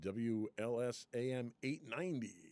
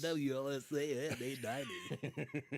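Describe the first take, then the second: First: It is said in a plain reading voice. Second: It is said in a radio announcer voice.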